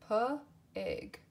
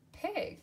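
First: Said in the usual way. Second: Pig popped up high; high repeat. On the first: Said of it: "word said twice". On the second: Shown as a demonstration. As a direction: lift pig up playfully. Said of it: "second take of word".

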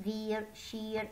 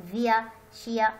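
First: "veer، sheer" with the final R sounded; American R pronounced. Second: "فيا، شيا" as veer and sheer without the final R; non-rhotic "فيا، شيا", ending in "-ia"; R dropped. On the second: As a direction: end "فيا" and "شيا" on an open vowel, no R. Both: Shown as a demonstration. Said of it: "أنا لفظت الراء على اعتبار أنه الأمريكان أكسنت".

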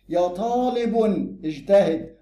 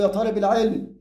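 First: "طالب" as taalibu, held before "اجتهد"; fixed nominative vocative. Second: "طالب" as taaliba, run into "العلم"; inflected vocative. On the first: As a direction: end "طالب" on -u, then pause. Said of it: "يبقى منادى مبني". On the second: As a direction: link "طالب" with an -a straight onto "العلم". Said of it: "تبقى معرب". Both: Shown as a demonstration.

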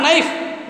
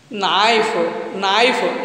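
First: "knife" with a quick, closed ai, higher; wrong vowel demo. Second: "knife" as na-if, the ah drawn out; correct diphthong. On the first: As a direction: show "knife" wrongly, without the drawn-out ah. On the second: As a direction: model "knife" with an open ah gliding into i. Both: Shown as a demonstration. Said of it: "not knife".

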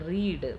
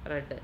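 First: റീഡ് with a long ee; റീഡ് as "reed", long vowel; present-tense pronunciation. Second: റെഡ് with a short e; റെഡ് as "red", short vowel; past-tense pronunciation. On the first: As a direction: say റീഡ് to rhyme with "need". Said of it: "അത് ക്രിയാപദമാണ് റീഡ് എന്നുള്ളത്". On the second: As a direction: say റെഡ് to rhyme with "bed". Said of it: "അത് റെഡ് എന്നാണ് വായിക്കുക". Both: Shown as a demonstration.

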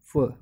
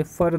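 First: "फ" as an open "fuh" with no R; silent final R. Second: "फर" as "fur" with an audible R; sounded final R. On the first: Teacher models the word for students, silent R. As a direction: end "फ" on the bare vowel. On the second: Teacher shows students what not to say, sounded R. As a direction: close "फर" firmly on its R. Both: Shown as a demonstration. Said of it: "फर नहीं बोलते".

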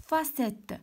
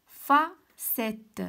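First: Said in the usual way. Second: "فا ... سيت" in two slow, separate syllables; broken into syllables. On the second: Shown as a demonstration. Teacher helping pupils hear the sound, "فا سيت" syllable by syllable. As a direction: sound out "فا سيت" slowly, pausing after "فا". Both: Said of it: "شنو كنسمع".

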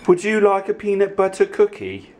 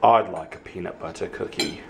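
First: High, playful question; high-voiced offer. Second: Low, softer answer; low playful reply to the offer; low-voiced reply. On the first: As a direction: pitch the offer way up. Asks and answers own question. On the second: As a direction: drop the voice to answer yourself. Answers own high-voiced question.

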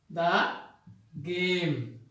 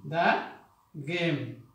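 Both takes have the same delivery.

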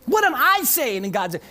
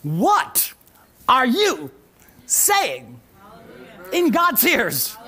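First: Said in the usual way. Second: Each word set apart by pauses, louder; slow, word-by-word title reveal with weight on you; announcing the title. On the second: Shown as a demonstration. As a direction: proclaim the sermon title, one word at a time. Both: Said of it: "the title of this message is".

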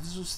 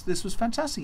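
First: Said in the usual way. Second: Fantastic lifted high with relish; delighted emphasis. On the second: A narrator's reading. Narrator sharing the young man's delight at the feast, rising emphasis. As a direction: land on fantastic, voice jumping up in delight.

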